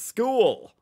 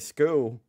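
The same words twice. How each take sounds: First: Every letter is clearly sounded. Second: Some letters are not clearly sounded. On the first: The speaker calls it right. "you got to pronounce every letter" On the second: The speaker calls it wrong. "You can't say school"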